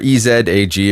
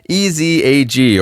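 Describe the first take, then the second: First: The letter Z is said the Canadian way. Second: The letter Z is said the non-Canadian way.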